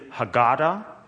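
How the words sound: It is said with an American pronunciation.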